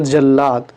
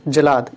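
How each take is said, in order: First: जल्लाद with a doubled l, "jal-laad"; correct form. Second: जलाद with a single l, "jalaad"; incorrect form. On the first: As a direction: hold the l long in जल्लाद. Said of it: "इधर शुद्ध रूप है". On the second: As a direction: keep the l short in जलाद. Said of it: "इधर हमारा अशुद्ध". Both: Shown as a demonstration.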